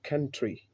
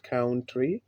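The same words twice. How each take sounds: First: Country as "kun-tree" with a short "u"; the model country; correct pronunciation. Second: Country as "kaun-tree" with an "ow" sound; the mistaken country; wrong way. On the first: Shown as a demonstration. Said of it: "but country". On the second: Retold or imitated. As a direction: say country rhyming its start with "cow". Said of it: "It is not country".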